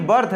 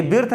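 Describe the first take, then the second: First: "बर्थ" with an "uh" vowel for the i; birth with 'अ'. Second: "बिर्थ" with a short i vowel before the r; mispronounced birth. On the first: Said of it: "बर्थ है". ("बर्थ", आई का उच्चारण अ) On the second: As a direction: read the i literally in "बिर्थ". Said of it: "ये बिर्थ नहीं है". ("बिर्थ", इ की मात्रा वाला गलत उच्चारण) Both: Shown as a demonstration.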